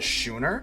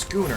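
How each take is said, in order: First: The word begins with a 'sh' sound. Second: The word begins with a 'sk' sound. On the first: The speaker calls it wrong. "I actually was pronouncing it Schooner" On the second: The speaker calls it right. "it's pronounced Schooner ... the H is silent"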